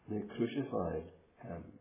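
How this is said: The stress falls on the word crucified. The manner of death was crucifixion, not mere killing. "you think of that word in the middle"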